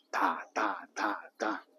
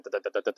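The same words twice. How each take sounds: First: Strong and weak beats, da da, with the 哒 half-whispered; English stress rhythm. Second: Every 哒 given equal, even weight; even Chinese rhythm. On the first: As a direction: beat out the English rhythm with syllables. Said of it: "英语的节奏". (用"哒"示范英语重音节奏，轻重分明) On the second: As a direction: tap out flat, evenly spaced beats. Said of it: "中文的一样". (用"哒"示范中文那种平均的节奏) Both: Shown as a demonstration.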